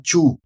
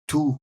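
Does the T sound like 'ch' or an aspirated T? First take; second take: ch; aspirated T. First: The T is pronounced like a 'ch' sound. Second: The T is followed by a puff of air. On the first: The speaker calls it wrong. "a gente fala tchu, não é tchu" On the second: The speaker calls it right. "É só um arzinho depois do T e o U"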